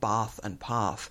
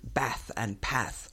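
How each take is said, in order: First: It is said with a non-northern English accent. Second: It is said with a northern English accent.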